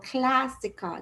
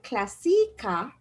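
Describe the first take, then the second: First: The accented A sound is long. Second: The accented A sound is short. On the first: The speaker calls it right. "The A has a longer sound" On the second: The speaker calls it wrong. "instead of going classica"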